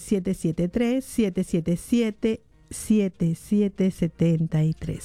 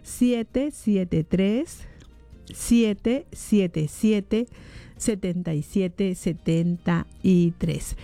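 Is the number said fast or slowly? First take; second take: fast; slowly. First: The number is said quickly. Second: The number is said slowly.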